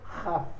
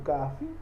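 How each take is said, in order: First: The word begins with a throaty kh sound. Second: The word begins with a hard k sound. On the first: The letter has no dot inside it. "Ele sem um ponto, ele tem um som de Het" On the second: The letter carries a dot inside it. "tem um som de K"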